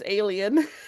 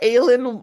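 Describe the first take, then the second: First: It is said like the English word 'alien'. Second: It is said the usual way, unlike 'alien'. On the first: "was pronounced alien" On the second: "she thought that alien"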